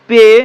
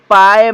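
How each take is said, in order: First: The vowel is a plain 'ay' sound. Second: The vowel is a diphthong like 'die'. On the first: The speaker calls it right. "ये हुआ इसका शुद्ध उच्चारण" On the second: The speaker calls it wrong. "हम गलती कर देंगे"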